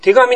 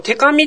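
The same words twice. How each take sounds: First: 手紙 with a voiced g, as the easy form; 手紙 pronounced te-gami; natural voiced g. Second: 手紙 said "te-kami" with a hard voiceless k; 手紙 with an unvoiced k, as the awkward form; 手紙 pronounced te-kami; unnatural voiceless k. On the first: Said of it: "手紙の方が言いやすいでしょ". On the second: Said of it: "この手紙って言いにくいんだよ". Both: Shown as a demonstration.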